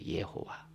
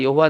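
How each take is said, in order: First: The first syllable is said as 'ye'. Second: The first syllable is said as 'yeo'. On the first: It is the original pronunciation. "원 발음은 예호와예요" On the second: It is the form passed on through translation. "우리가 구약 성경에 여호와 여호와 여호와 나오잖아요"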